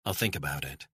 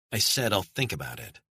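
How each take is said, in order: First: Said in the usual way. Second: Said pushed hard and falling; stress on said. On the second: Acted. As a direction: lean on said, firm and final. Caller repeats her refusal, firmer.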